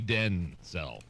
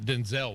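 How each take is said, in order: First: The stress is on the first syllable. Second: The stress is on the second syllable. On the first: The speaker calls it right. "Emphasis on the den" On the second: The speaker calls it wrong. "not Denzel Washington"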